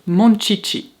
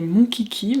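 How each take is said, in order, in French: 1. La consonne répétée est un son 'sh'. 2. La consonne répétée est un son 'k'. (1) "eux ils prononcent ça comme ça" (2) "Moi quand j'étais petite je disais monkiki"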